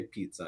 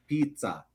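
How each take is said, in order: First: Said in the usual way. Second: "pizza" said the Japanese way; Japanese accent. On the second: Shown as a demonstration. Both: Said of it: "is how you say pizza".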